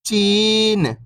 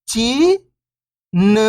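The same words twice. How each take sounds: First: Whole word, level then falling at the end; syllables blended. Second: First syllable lifting, pause, second falling. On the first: Teacher showing beginners the joined word, syllables blended. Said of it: "तो मिलके बन जाएगा". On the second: Teacher breaking a word down for beginning readers, syllable by syllable. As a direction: sound out each syllable alone, long and separated. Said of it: "एक अक्षर का उच्चारण करके". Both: Shown as a demonstration.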